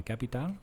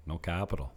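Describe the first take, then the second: First: Higher questioning CAPITAL, ca-pi-TAL; local pronunciation. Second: CAPITAL stressed on CAP, falling; English pronunciation. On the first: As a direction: ask CAPITAL with the stress on TAL. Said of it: "they put the accent on the end". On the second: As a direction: correct it to an American CAP-i-tal. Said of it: "putting an accent on when I say capital". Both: Retold or imitated.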